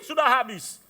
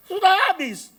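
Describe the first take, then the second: First: Said in the usual way. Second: "Sudah habis" said again much higher and louder; "Sudah habis" cried out high and loud the second time; emphatic repeat. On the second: Acted. Money ran out, repeated louder.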